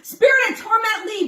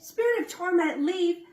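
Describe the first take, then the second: First: It is said forcefully, with authority. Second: It is said weakly, without authority.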